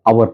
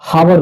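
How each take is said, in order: First: The word starts with a vowel sound. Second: The word starts with an h sound. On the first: The speaker calls it right. "आवर पढ़ते हैं, अ का उच्चारण होता है" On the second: The speaker calls it wrong. "आवर को हम लोग as हावर नहीं कभी पढ़ते हैं"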